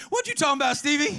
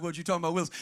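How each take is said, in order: First: High, animated mother's question. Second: Low, offhand catchphrase; catchphrase aside. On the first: Preacher as mother questioning young Stevie, high comic challenge. Mother's line again, after the aside. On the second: Preacher drops in a sitcom line mid-story, low aside. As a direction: toss the catchphrase in lower, as an aside. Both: Retold or imitated.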